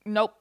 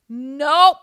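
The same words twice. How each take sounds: First: Said in the usual way. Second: Loud, higher-pitched NOPE; emphatic rejection. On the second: Real, not acted. Host rejecting the article she read, loud and emphatic.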